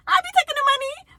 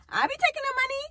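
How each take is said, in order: First: Louder high stress on taking; emphatic repeat. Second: Said in the usual way. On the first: Shown as a demonstration. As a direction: hammer the money line. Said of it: "repeated louder". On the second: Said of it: "repeated line".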